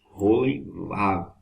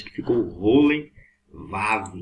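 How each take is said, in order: First: Rolenvav stretched very slowly; slow repeat. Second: Rolenvav drawn out slowly; slow demo. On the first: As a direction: say Rolenvav syllable by syllable. (Rolenvav repetido bem devagar) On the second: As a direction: spell out Rolenvav slowly for the class. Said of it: "combinou um sinal maçorético". (Rolenvav bem devagar) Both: Shown as a demonstration.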